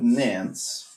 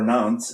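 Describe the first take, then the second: First: Nantes is said with an English pronunciation. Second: Nantes is said with a French pronunciation.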